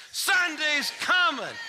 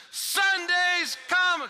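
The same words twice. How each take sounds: First: High, slow call-back; shouted answer. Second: High, slow shouted answer; crowd shout. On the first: Shown as a demonstration. Audience asked to shout back, slow. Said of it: "give me one more chance". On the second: Retold or imitated. Congregation shouting back in unison, slow. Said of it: "everybody shouted back in unison".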